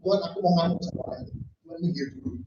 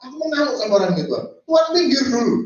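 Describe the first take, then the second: First: Quick offhand aside. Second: Very fast, higher and louder, pushing God aside; impatient outburst. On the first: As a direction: brush God off in a quick undertone. (cepat dan pelan, acuh tak acuh) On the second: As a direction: rattle it off loud and impatient. (cepat, keras dan tidak sabar) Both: Retold or imitated. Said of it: "bahkan dia ngomong".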